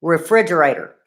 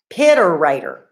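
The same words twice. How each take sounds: First: Said in the usual way. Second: Refrigerator turned into "Piterator"; sister's mispronunciation. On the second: Retold or imitated. Telling y'all how my sister said refrigerator, mispronounced as "Piterator". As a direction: say "Piterator", starting with "pit" in place of "refridge". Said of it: "Y'all, my sister said".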